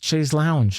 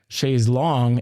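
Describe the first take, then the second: First: The second word sounds like 'lounge'. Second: The second word sounds like 'long'. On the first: This is how North Americans say it. "some of our North American listeners are thinking" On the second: This is how it is said in England. "it is pronounced chaise longue in England"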